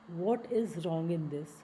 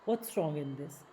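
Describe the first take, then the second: First: 'What is' is said as two full words. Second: 'What is' is shortened into one syllable. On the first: The speaker calls it wrong. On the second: The speaker calls it right.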